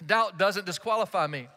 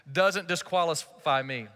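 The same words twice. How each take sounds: First: "Doubt" hit first and firmly; stress on doubt. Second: Slow, weight on "doesn't"; stress on doesn't. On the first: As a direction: lead with a firm "Doubt". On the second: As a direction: lean hard into "doesn't disqualify me". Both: Shown as a demonstration.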